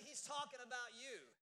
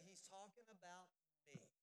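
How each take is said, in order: First: With conviction. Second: Half-hearted. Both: Shown as a demonstration. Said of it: "y'all didn't say that with much conviction".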